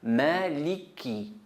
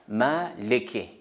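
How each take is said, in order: First: The vowels after the l sound like i. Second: The vowels after the l sound like e. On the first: The speaker calls it right. "I, I toujours" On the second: The speaker calls it wrong. "Maleke, c'est faux"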